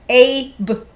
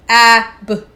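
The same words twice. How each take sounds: First: The first vowel is a long 'a' sound. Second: The first vowel is a short 'a' sound. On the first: "or its long vowel sound" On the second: "pronounce the word with its short or its long vowel sound"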